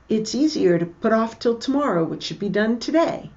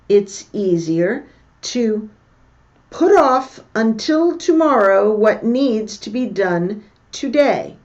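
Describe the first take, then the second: First: It is said fast. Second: It is said at normal speed.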